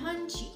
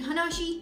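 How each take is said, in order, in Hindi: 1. यह दो अक्षरों में बोला जाता है, han-shi। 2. यह तीन अक्षरों में बोला जाता है, hana-shi। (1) "हम कहते हैं हंशी" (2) "हमें बोलना चाहिए हनाशी"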